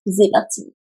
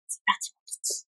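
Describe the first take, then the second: First: Said in the usual way. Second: Soft breathy whisper; ASMR whisper. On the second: Shown as a demonstration. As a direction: whisper it close to the mic. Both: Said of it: "A S M R".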